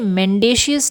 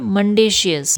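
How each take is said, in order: First: The first syllable sounds like 'men'. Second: The first syllable sounds like 'mun'. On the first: The speaker calls it wrong. "इसे मेंडेशियस नहीं कहते हैं" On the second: The speaker calls it right. "इसे कहते हैं मंडेशियस"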